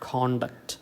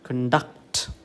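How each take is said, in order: First: The stress is on the first syllable. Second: The stress is on the second syllable. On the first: It is the noun, meaning behaviour. "The stress false on the first syllable" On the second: It is the verb, to carry out something. "The stress false on the second syllable"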